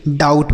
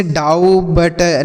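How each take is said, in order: First: डाउट as one syllable, B silent; correct pronunciation. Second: डाउ बट split in two, with the silent B sounded as बट; wrong spelling pronunciation. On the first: Teacher giving children the right form: डाउट, B silent. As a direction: say डाउट cleanly, no B sound. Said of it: "इसको नहीं पढ़ा जाएगा". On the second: Teacher showing children the wrong way: डाउ बट with B pronounced. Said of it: "डाउ बट ऐसे नहीं पढ़ेंगे". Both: Shown as a demonstration.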